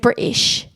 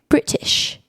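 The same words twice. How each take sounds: First: The middle T is dropped. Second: The middle T is clearly pronounced. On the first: The speaker calls it wrong. "they don't say the T's" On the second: The speaker calls it right. "you say the T's"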